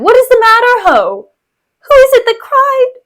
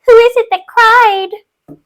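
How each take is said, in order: First: High, loud, hammed-up cry of alarm; Bianca. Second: High, loud, drawn-out mocking echo; Iago in mimicry. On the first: Bianca bursting in on the wounded, high and alarmed. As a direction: wail it out in a high, theatrical voice. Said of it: "Bianca comes in". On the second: Iago mocking Bianca's cry, high and slow mimicry. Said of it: "Iago says in mimicry".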